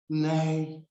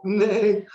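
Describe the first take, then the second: First: Said in the usual way. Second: High, loud donkey-like nay; braying nay. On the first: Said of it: "Bilam's talking more like the donkey". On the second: Retold or imitated. Mocking Bilam with a donkey's nay. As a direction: bray the word like a donkey.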